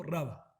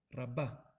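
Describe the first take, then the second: First: "Rabba" said RA-ba, accent on the first syllable; "Rabba" with the accent on "Ra", as spelled with Aleph; stress on first syllable. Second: "Rabbah" said ra-BAH, accent on the last syllable; "Rabbah" with final-syllable stress, as spelled with Hei. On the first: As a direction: hit "Ra" in "Rabba" and let "ba" fall away. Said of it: "con acento en la Ra". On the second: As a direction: land the weight on "bah" in "Rabbah". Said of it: "con acento al final". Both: Shown as a demonstration.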